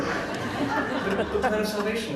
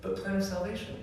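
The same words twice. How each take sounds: First: Laughing. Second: Higher, teasing singsong catchphrase; mock catchphrase. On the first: Real, not acted. Laughing at the empty phrase. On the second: Cousins joking to each other, teasing higher singsong. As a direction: toss it off like an inside joke. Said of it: "jokes that we just said to each other".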